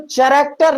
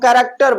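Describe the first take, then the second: First: It begins with a 'ch' sound. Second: It begins with a 'k' sound. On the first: The speaker calls it wrong. "तो चैरेक्टर नहीं पढ़ते हम" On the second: The speaker calls it right. "यहां पर H silent है, तो हम कैरेक्टर बोलेंगे"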